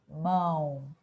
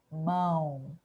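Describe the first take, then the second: The two takes are said the same way.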